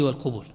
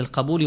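First: والقبول as wal-qubūl, u after q; والقبول rounded to qu-būl; damma form. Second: القبول as al-qabūl, a after q; القبول opened to qa-būl; fatha form. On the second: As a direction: say القبول with an open a. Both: Shown as a demonstration. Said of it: "يجوز فيه الفعول والفعول".

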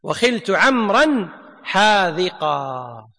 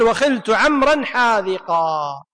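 First: Repeated even slower, lower and falling; teacher repeating the verse slowly for students; slow, falling recitation. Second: Slow, drawn-out reading of the verse line; teacher reading the grammar verse slowly; slow recitation. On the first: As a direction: draw out every word and let it fall. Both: Shown as a demonstration. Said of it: "المصنف قال".

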